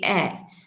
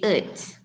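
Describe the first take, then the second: First: The word has its full strong vowel. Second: The word is reduced to a weak vowel. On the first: The speaker calls it right. "you use the strong forms, yeah, you say at" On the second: The speaker calls it wrong. "you don't say it"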